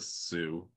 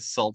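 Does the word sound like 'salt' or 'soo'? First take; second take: soo; salt. First: The word sounds like 'soo', with no l. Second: The word sounds like 'salt', with an l. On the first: "The Sioux" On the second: "It looks like it's pronounced salt. For the longest time, I was calling it"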